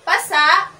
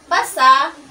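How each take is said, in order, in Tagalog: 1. Diin sa huling pantig, bukas ang pagtatapos na walang impit. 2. Diin sa huling pantig, nagtatapos sa matalas na impit. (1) "binibigkas ng tuloy-tuloy na ang diin ay nasa huliang pantig. Wala itong impit na tunog" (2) "may impit o para pasarang tunog sa hulian"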